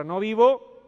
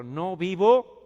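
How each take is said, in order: First: "No vivo" called out even louder and higher; louder on request. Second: Loud declaration. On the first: Preacher demanding a louder "No vivo", loud and high. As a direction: shout "No vivo" back, stronger. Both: Shown as a demonstration. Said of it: "A ver, más fuerte esa palabra".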